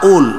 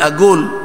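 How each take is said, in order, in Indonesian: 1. Konsonan tengahnya adalah hamzah. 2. Konsonan tengahnya adalah bunyi g yang keras. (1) "Kalau Mesir qaf itu dibaca hamzah"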